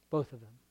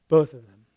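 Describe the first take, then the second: First: Said in the usual way. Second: Louder emphatic Both of them; firm repeated answer. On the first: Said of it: "repeats phrase, second louder". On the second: Shown as a demonstration. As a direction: land Both hard and loud. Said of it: "repeats phrase louder".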